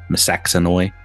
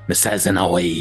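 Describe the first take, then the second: First: The middle consonant sounds like 'ks'. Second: The middle consonant sounds like 'z'. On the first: "I'm pretty sure I'm saying it right" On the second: "a Z in place of the X"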